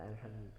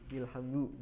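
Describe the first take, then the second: First: The word begins with an a vowel. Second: The word begins with an i vowel. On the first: The speaker calls it right. "tapi dibaca a" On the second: The speaker calls it wrong. "bukan i"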